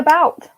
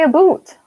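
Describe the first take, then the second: First: The vowel sounds like 'ow', as in 'out'. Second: The vowel sounds like 'oo', as in 'boot'. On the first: This is how the speaker claims to actually say it. The speaker calls it right. "I say about" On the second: This is the pronunciation others accuse the speaker of using. The speaker calls it wrong. "But I don't say about"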